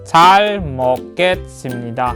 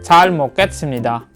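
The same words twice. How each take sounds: First: The phrase is said at a slow pace. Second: The phrase is said at a fast pace.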